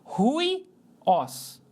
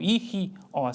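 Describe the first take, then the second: First: The word begins with a breathy h sound. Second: The word begins directly with a vowel sound. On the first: The speaker calls it right. "como ele tem o som de R, eu vou ler aqui no começo" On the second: The speaker calls it wrong. "Ou i, os"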